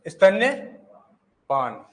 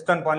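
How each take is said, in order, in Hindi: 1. 'stan' के बाद 'y' के साथ बोला जाता है। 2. 'stan' के बाद 'y' के बिना बोला जाता है। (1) "शुद्ध लिखेंगे स्तन्यपान" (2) "हम उसको बोलते भी स्तनपान ही है"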